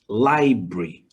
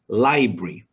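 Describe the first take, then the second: First: The word is squeezed into two syllables. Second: The word is squeezed into two syllables.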